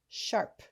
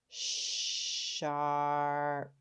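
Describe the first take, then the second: First: The word is said quickly as one blend. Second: The word is stretched out sound by sound. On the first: "Say it fast" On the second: "Tap and stretch again"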